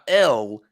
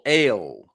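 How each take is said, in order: First: The vowel sounds like the 'e' in 'bell'. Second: The vowel sounds like the 'a' in 'ale'. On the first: The speaker calls it wrong. "Not L" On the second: The speaker calls it right. "he's pronouncing it"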